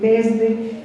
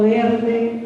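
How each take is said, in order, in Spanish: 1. La s antes de d suena como una s. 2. La s antes de d suena como una l. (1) "por decir desde" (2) "la conversión de S en L"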